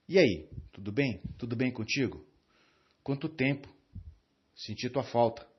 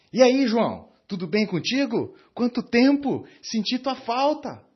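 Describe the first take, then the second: First: Indifferent greeting. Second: Much higher and louder, bursting with joy at seeing him; enthusiastic greeting. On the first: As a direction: greet him as if you don't care. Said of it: "transmitindo um desprezo do tipo, "Tô nem aí pra você". (cumprimento indiferente, com desprezo contido) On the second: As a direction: greet an old friend you truly missed. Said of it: "E agora eu vou usar das mesmas palavras de uma outra forma". (cumprimento entusiasmado, bem mais alto e forte) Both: Shown as a demonstration.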